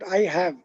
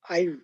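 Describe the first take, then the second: First: It is said as two full separate words. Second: It is said as one short contracted syllable. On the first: The speaker calls it wrong. "not I have" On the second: The speaker calls it right. "it is pronounced uh, as I"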